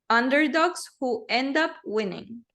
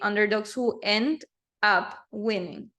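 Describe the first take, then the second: First: The words run together, linked into each other. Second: The words are said separately, not linked. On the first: The speaker calls it right. "we unite them. So we link" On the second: The speaker calls it wrong. "We don't say"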